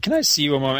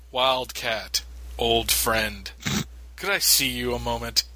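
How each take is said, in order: First: Sheepish plea. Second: Stiff awkward speech. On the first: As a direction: ask like a guy caught by his wife. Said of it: "the look on Flash's face when he's calling". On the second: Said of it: "I just hate the stilted dialogue". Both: Retold or imitated.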